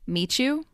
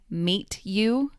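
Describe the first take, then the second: First: The two words blend together into one sound. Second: The two words are said separately and clearly. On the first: "said together quickly" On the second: "when said alone"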